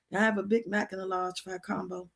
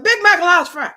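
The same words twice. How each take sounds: First: Barely audible, much softer, words hardly coming out; mock faint whisper. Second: Higher and louder, finally blurting the order; forcing it out. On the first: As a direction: mouth the order with almost no sound. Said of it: "But I was whispering". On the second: Retold or imitated. High woman at the counter finally blurting her order. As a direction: push the words out in one burst. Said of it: "somehow I must have get it out".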